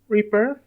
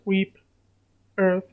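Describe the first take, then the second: First: The word is split as re plus birth. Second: The word is split as reap plus earth. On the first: The speaker calls it right. "that's how you pronounce that" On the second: The speaker calls it wrong. "It's not reap earth"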